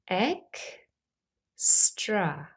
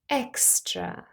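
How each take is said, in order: First: The word is said slowly, syllable by syllable. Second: The word is said at normal speed.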